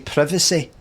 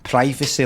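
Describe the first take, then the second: First: The word is said the non-American way. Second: The word is said the American way. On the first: "I say privacy like a non-American" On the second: "you say privacy like an American"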